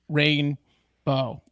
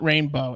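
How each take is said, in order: First: It is split into two separate words. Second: It is run together as one word. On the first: The speaker calls it right. "It's rainbow. It's two words" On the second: The speaker calls it wrong. "It's not rainbow"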